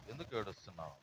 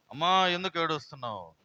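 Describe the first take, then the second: First: Soft, low repeated question; gentle asking. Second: Loud, raised opening call; concerned calling out. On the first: Jesus asking the weeping woman, gentle asking. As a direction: drop the voice and ask her quietly. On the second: Jesus asking the weeping woman, concerned calling out. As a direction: call out to her with a strong voice. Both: Acted.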